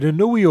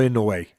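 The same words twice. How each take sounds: First: "Inoue" with a NOO middle and an ee ending; "Inoue" pronounced uh-NOO-ee, offered as one option. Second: "Inoue" ending in a clear "way"; "Inoue" pronounced IN-uh-way, offered as the other option. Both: Shown as a demonstration. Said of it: "how do you pronounce his name".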